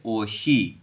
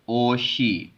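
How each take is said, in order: The two takes are said the same way.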